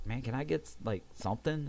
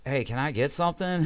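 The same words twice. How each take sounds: First: Mild, hesitant ask with a rising end; tentative request. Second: Higher, more forceful repeat ask; insistent request. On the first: Patient asks staff for pain relief, tentative. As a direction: ask softly and tentatively, a little higher. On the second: Ignored patient calls to staff for pain relief, insistent. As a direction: call out for attention, pitched up. Asks again after being refused. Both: Retold or imitated.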